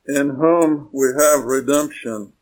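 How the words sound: The main stress falls on the word redemption. The focus is on what we have, redemption. The speaker calls it wrong. "We would put the emphasis on the word redemption"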